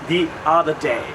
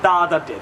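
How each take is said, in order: First: 'The' sounds like 'thee', gliding into 'other'. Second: 'The' sounds like 'thuh', with no glide. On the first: The speaker calls it right. "we add a little ya in there" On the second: The speaker calls it wrong. "not the other day"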